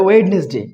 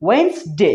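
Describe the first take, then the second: First: ওয়েডনেসডে as wed-nes-day; common mispronunciation. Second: ওয়েডনেসডে as two-beat wens-day; correct pronunciation. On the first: Teacher quotes what many say, three-beat wed-nes-day for ওয়েডনেসডে. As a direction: voice the first D of ওয়েডনেসডে. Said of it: "অনেকেই বলে". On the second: Teacher gives the correct form, ওয়েডনেসডে as wens-day. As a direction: leave the first D of ওয়েডনেসডে silent, wens-day. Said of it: "সঠিক উচ্চারণ কি?". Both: Shown as a demonstration.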